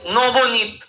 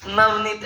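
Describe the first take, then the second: First: नवोनीत said as "Nobonit", with rounded "o" vowels; Bengali pronunciation. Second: Said in the usual way. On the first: Shown as a demonstration. Teacher teases Bengalis over vowels, नवोनीत with Bengali "o" sounds. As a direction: stretch it to three syllables, नवोनीत as "No-bo-nit". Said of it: "ओ लगा तो चाहे आ लगा". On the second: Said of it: "एक ही".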